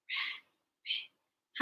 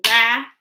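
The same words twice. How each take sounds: First: "Rabbit" whispered very softly in two parts; whispered syllables. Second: "Rabbit" broken into two voiced beats with a gap; split into syllables. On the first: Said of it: "Whisper with me". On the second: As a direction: say "Rabbit" aloud, one syllable at a time. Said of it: "Break words into parts with me". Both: Shown as a demonstration.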